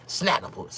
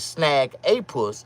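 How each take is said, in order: First: The name is said quickly, run together. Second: The name is said slowly as separate words. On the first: "when you say it fast all together" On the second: "It's Snag a Puss"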